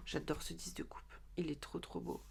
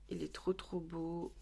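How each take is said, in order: First: Whispered in awe, unvoiced; chuchoté. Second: Said in the usual way. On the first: Real, not acted. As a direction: breathe it out in a whisper. Admiring a tarot card. (murmuré avec admiration)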